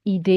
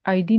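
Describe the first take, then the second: First: The first vowel sounds like 'ee'. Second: The first vowel sounds like 'eye'. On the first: The speaker calls it right. "ये ईडे ही रहना चाहिए" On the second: The speaker calls it wrong. "इसको दोबारा से आईडी नहीं बनना चाहिए"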